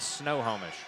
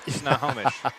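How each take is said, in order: First: The first syllable sounds like 'snow'. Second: The first syllable sounds like 'snuh'. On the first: The speaker calls it wrong. "The wrong way is Snowhomish" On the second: The speaker calls it right. "it's S N U H"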